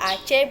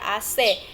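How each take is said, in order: First: The letters are named the Indonesian way. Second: The letters are named a non-Indonesian way. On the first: The speaker calls it right. "dibaca Aceh" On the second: The speaker calls it wrong. "bukan dibaca A C"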